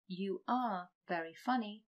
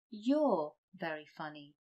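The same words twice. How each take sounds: First: "You are" said as two clear words; full form. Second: "you're" run together as one syllable; contracted form. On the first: Teacher reads the long form first. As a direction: keep "You are very funny" uncontracted. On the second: Teacher gives the everyday contraction. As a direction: blend "you're very funny". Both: Shown as a demonstration.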